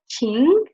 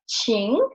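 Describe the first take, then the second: First: The pitch rises from middle to high. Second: The pitch dips low and then rises. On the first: It means feeling or emotion. "it will get the second tone" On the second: It means to ask or to invite. "we will pronounce it in the third tone"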